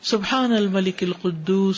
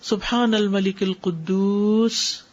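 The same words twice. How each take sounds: First: It is said at normal length. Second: It is said slowly, drawn out long.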